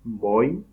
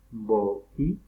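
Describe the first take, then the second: First: "boi" said as one joined syllable; quiz pronunciation option. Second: "bo'i" broken by a catch between o and i; glottal stop option. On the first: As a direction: say "boi" in one glide, without a break. ("boi" dicho de corrido, sin pausa) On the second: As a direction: slowly split "bo'i" into bo, stop, i. ("bo'i" lento, con corte glotal antes de la i) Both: Shown as a demonstration. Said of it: "se dice correctamente".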